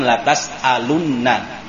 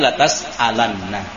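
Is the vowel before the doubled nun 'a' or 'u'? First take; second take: u; a. First: The vowel before the doubled nun is u. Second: The vowel before the doubled nun is a. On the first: The speaker calls it wrong. "Bukan latas alunna" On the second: The speaker calls it right. "mabniun alal fathi"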